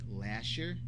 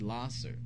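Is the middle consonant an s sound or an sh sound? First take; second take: sh; s. First: The middle consonant is an sh sound. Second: The middle consonant is an s sound. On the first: The speaker calls it wrong. "Some people pronounce it Lasher" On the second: The speaker calls it right. "it is actually Lasser"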